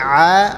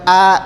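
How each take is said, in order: First: It opens with a deeper, squeezed throat sound. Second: It opens with a light glottal stop. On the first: The speaker calls it right. "tapi A" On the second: The speaker calls it wrong. "jadi bukan A"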